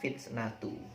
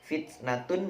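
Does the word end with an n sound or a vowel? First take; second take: vowel; n sound. First: The word ends on a vowel, without n. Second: The word ends with an n sound. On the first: "menjadi fitnatu" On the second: "Fitnatun menjadi fitnatu"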